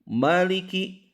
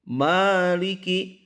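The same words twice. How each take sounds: First: The first vowel is said short. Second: The first vowel is said long. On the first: The speaker calls it wrong. "Jangan dibaca maliki" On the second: The speaker calls it right. "Seharusnya adalah maliki"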